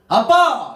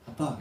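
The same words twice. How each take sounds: First: It is cried out loudly with emotion. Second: It is said plainly and calmly.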